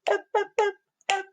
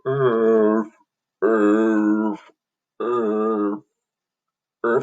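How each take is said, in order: First: The letters are said at moderate speed. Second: The letters are drawn out very slowly.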